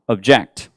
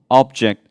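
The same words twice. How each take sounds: First: The stress is on the second syllable. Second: The stress is on the first syllable. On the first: It is used as a verb. "보통 동사할 때는 액센트를 뒤에 줍니다" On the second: It is used as a noun. "액센트가 앞쪽에 있고요"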